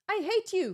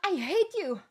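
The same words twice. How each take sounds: First: It is said plainly, without audible breath. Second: It is said with heavy, audible breath.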